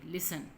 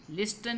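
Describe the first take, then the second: First: लिसन said lis-en, no t; teacher models लिसन with the t silent. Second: लिस्टन with the t said aloud; wrong t sounded. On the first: Teacher to class, modelling the right लिसन, silent t. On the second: Teacher showing the wrong लिस्टन with t sounded. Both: Shown as a demonstration. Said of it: "लिस्टन नहीं पढ़ते".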